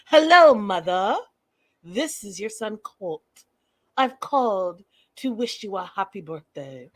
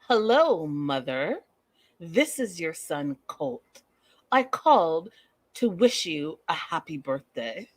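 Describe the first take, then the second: First: Loud, eerie Hello, then a creepy, formal greeting; hammed-up creepy mama's boy, strange timbre; Norman Bates voice. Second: Lightly voiced eerie mama's boy; a hint of a stiff, formal son greeting his mother; slow, overly polite phone greeting; creepy son voice. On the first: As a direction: play the unsettling son on the phone. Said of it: "Norman Bates kind of talking". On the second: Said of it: "let me get into character".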